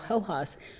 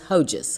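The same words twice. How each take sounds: First: The J is said like an H sound. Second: The J is said like an English J. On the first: The speaker calls it right. "so Hojas" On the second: The speaker calls it wrong. "we're not going to pronounce the J as Hojas"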